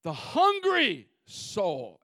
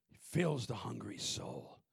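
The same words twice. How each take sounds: First: "hungry" drawn out slowly and leaned on; stress on hungry. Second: Said in the usual way. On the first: Shown as a demonstration. Preacher stressing the operative word "hungry" to his church. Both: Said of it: "Emphasize, operative word".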